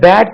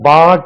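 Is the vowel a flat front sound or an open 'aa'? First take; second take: flat front; open aa. First: The vowel is a flat front sound, not 'aa'. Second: The vowel is an open 'aa' sound. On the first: The speaker calls it right. "இது பேட் என்று நம்மளுக்கு சொல்ல தெரியாமல் இருந்தால்" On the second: The speaker calls it wrong. "பாட் என்று கூட தவறாக உச்சரிக்கலாம்"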